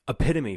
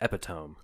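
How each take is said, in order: First: The word is said with its standard pronunciation. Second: The word is said as its spelling suggests. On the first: The speaker calls it right. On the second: The speaker calls it wrong.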